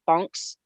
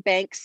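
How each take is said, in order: First: The name has the vowel of 'bonk'. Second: The name has the vowel of 'bank'. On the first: This is how the name is properly pronounced. The speaker calls it right. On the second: This is the speaker's own habitual version of the name. The speaker calls it wrong.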